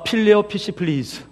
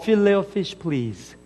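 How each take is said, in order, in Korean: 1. f 소리가 불분명하고 억양이 섞여 있어요. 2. f 소리가 분명하고 원어민 같아요. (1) "한국 사람이 F 발음이 잘 안 돼요" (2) "백인이 그러더래요"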